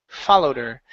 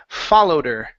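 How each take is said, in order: The two takes are said the same way.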